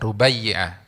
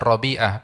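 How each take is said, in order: First: The name begins with 'Ru', as Rubaiyah. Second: The name begins with 'Ro', as Robi'ah. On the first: The speaker calls it right. "yang benar adalah Rubai Rubaiyah" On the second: The speaker calls it wrong. "Kadang-kadang bilangnya bacanya Robi'ah"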